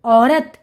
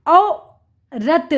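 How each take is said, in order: First: Said in the usual way. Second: औ, pause, then रत, slowly; sounding out. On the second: Shown as a demonstration. Teacher reading to children, syllable by syllable. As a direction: split it slowly: औ... रत. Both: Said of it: "उच्चारण करके पढ़ लिया".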